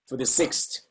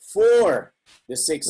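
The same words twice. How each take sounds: First: The word 'for' is reduced to a weak schwa. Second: The word 'for' has its full, unreduced vowel. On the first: The speaker calls it right. "That is why it's reduced to fur" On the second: The speaker calls it wrong. "Nobody's going to say for the sixth"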